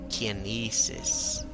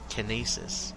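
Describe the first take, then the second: First: The first vowel sounds like 'eye'. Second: The first vowel sounds like 'ee'. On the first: "I goes I" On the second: "Why not just use a bunch of E's? E goes E"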